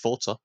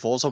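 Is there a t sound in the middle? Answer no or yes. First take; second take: yes; no. First: The middle consonant has a t sound. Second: The middle consonant has no t sound. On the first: The speaker calls it wrong. "fucking Americans think it's Forza" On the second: The speaker calls it right. "There's no T in Forza"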